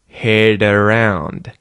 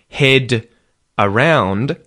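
First: The d in head is a quick flap. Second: The d in head is a full d. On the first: "the D at the end of the word head becomes a T flap" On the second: "instead of head around"

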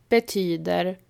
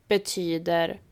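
Both takes have the same delivery.

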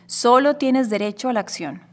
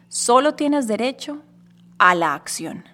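First: The line is spoken at an ordinary pace. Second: The line is spoken at a slower pace.

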